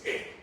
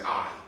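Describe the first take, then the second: First: The vowel is the short sound, as in 'it'. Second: The vowel is the long sound, as in 'eye'. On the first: "the short sound for I is" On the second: "The long sound is"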